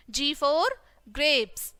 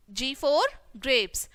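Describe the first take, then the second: First: Said in the usual way. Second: G for grapes drawn out slowly, word by word; slow and clear. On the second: Shown as a demonstration. Teacher repeating G for grapes slowly for children. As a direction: spell out G for grapes slowly for the class.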